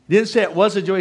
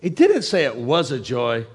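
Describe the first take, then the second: First: It is shouted at a loud volume. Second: It is said at a normal, quieter volume.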